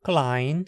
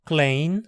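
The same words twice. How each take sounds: First: The vowel is an ai diphthong. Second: The vowel is an ei diphthong. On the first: This is the Standard German form. "depois em alemão padrão" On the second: This is the Middle High German form. "eu vou falar a versão em alemão médio"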